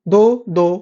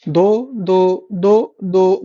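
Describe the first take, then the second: First: Said in the usual way. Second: Slow memory-aid drill on दो; slow drilled count. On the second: Shown as a demonstration. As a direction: stretch दो, दो out very slowly. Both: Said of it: "दो से याद करो".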